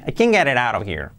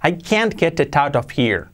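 First: The t sounds like a soft r, h dropped. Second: Every sound is pronounced fully and separately. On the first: The speaker calls it right. "Mucho más natural" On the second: The speaker calls it wrong. "Suponiendo que lo pronunciáramos bien, qué raro sonaría"

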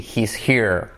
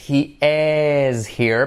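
First: He and is merge into one syllable. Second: He and is are said as two separate words.

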